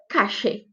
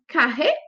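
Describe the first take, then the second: First: The ll sounds like a hissing sh sound. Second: The ll sounds like a buzzing zh sound. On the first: This is also heard in Argentina and Uruguay. "Como se fosse um X mesmo" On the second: This is heard in Argentina and Uruguay. "como se fosse um, um R, mas não tão forte"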